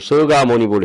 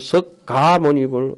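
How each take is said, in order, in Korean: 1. 첫 음절은 부드럽고 k 소리가 없어요. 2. 첫 음절은 강한 k 소리로 끝나요. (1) "발음은 서가모니불 서가모니불 서가모니불 해야 됩니다" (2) "똑똑한 체 한다고 석가모니불"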